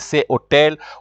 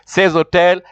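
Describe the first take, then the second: First: The two words are said separately, without linking. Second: The two words are linked with a joining sound. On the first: The speaker calls it wrong. "You can't say ces hotel" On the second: The speaker calls it right. "You have to say ces hotel"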